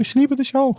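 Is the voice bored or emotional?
emotional. It is said with lively emotion.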